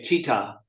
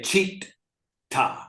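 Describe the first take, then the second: First: The T sound is short, like one T. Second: The T sound is held long, doubled. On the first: The speaker calls it wrong. "you don't just say città" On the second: The speaker calls it right. "you say città"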